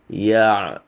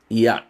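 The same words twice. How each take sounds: First: The airflow continues through the sound. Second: The airflow is blocked in the sound. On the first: The speaker calls it right. "it flows through" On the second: The speaker calls it wrong. "You don't stop ya. It is not ya"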